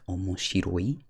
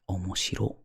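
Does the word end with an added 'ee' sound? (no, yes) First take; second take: yes; no. First: The word ends with a final 'ee' sound. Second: The word ends without the final 'ee' sound. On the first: This is the usual form. "Usually this is omoshiroi with an I at the end" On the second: It shows excitement. "to kind of show excitement, it's not proper per se... You drop the I"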